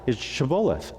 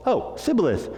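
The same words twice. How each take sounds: First: Shibboleth with a clear SH at the start; correct password pronunciation. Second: High-pitched Oh, then Sibboleth with S for SH; Sibboleth missing its SH, after a high Oh; mispronounced password. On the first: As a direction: hand over the password, SH in Shibboleth. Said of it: "what's the password?". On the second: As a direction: try Shibboleth and land on a plain S. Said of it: "a bit of a speech impediment". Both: Acted.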